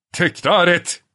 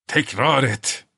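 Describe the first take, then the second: First: High, loud thundering command; gürleyerek. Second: Slow menacing. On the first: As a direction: roar the order. (gürleyen emir) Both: A narrator's reading. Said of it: "diye gürledi Bormental".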